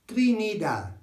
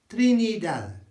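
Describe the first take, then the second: No difference in how they are said.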